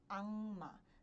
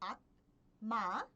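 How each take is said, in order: First: The consonant before the m is a nasal. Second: The consonant before the m is a stop. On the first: The speaker calls it right. "vocês pronunciam como anma" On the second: The speaker calls it wrong. "ao invés de pronunciar como"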